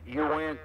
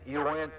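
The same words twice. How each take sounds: The two takes are said the same way.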